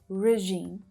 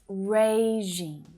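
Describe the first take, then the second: First: The first syllable has a short, weak vowel. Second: The first syllable sounds like 'ray'. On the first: The speaker calls it wrong. "it's not that short, unstressed sound" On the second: The speaker calls it right. "The first syllable sounds like ray"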